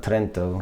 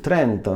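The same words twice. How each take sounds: First: The name is said plainly, without an accent. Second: The name is said with an accent.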